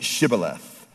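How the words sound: The word begins with an 'sh' sound.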